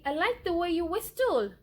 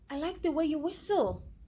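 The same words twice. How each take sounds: First: The t in whistle is clearly pronounced. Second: The t in whistle is left silent. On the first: The speaker calls it wrong. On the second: The speaker calls it right.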